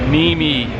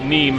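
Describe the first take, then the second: First: The name is said with two syllables. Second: The name is said with one syllable. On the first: The speaker calls it right. "The correct pronunciation is actually Nimi" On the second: The speaker calls it wrong. "a lot of people out there for actually pronouncing it Neem"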